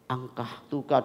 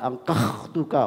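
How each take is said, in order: First: The middle consonant is a breathy h sound. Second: The middle consonant is a rough kh sound. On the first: The speaker calls it right. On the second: The speaker calls it wrong.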